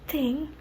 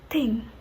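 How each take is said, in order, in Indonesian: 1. Kata ini dimulai dengan bunyi th. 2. Kata ini dimulai dengan bunyi t biasa.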